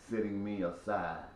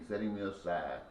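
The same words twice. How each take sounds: The two takes are said the same way.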